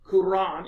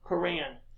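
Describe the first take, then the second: First: It uses the newer, more Arabic-like pronunciation. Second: It uses the older, anglicized pronunciation. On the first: This is the form used now. The speaker calls it right. "the Quran instead of" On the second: This is the form an older generation used. The speaker calls it wrong. "instead of the Quran"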